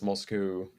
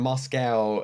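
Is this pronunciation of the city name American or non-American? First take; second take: non-American; American. First: The name is said with a non-American pronunciation. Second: The name is said with an American pronunciation. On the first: "everywhere else, Moscow" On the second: "Americans love saying Moscow"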